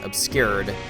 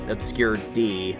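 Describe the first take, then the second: First: The final d is blended into one word. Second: The final D is said as a separate letter. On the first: The speaker calls it right. "I'm just going to pronounce it as Obscured because that sounds less dumb" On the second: The speaker calls it wrong. "or Obscure D"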